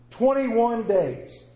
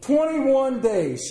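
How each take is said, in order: First: Twenty-one days stretched very slowly and weighted; very slow emphasis. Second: Twenty-one days drawn out slowly, each word weighted; slow emphatic repeat. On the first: Preacher hammering home the habit rule, very slowly. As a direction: let Twenty-one days sink in word by word. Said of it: "Studies have shown". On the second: Preacher repeating the answer back slowly and firmly. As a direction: land Twenty-one days hard for the congregation. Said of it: "Somebody say it out loud". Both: Shown as a demonstration.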